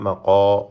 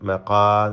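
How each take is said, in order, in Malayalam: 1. 'qa' ശബ്ദം കനത്തും നിറഞ്ഞും ഉച്ചരിക്കുന്നു. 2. 'qa' ശബ്ദം ലഘുവായും നേർത്തും ഉച്ചരിക്കുന്നു. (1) "തഫ്ഖീം കൊടുക്കണം, പെരുപ്പിച്ച് പറയണം" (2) "അല്ല"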